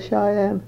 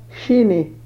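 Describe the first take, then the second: First: The word is said as 'shy-ann'. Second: The word is said as 'shee-nee'. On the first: The speaker calls it right. "So Cheyenne" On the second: The speaker calls it wrong. "I could mispronounce them, something terrible"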